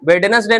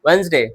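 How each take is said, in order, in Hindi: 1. बीच में d की ध्वनि बोली जाती है। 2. बीच में d की ध्वनि साइलेंट है। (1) "वेडनेसडे नहीं" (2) "डी नहीं पढ़ते"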